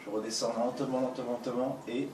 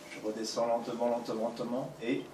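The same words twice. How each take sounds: The two takes are said the same way.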